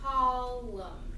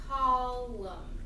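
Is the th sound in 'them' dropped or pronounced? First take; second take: dropped; dropped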